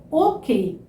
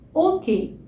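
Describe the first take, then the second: No difference in how they are said.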